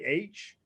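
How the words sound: The letter is said the Protestant way. The speaker is from a Protestant background. "Protestants would say H"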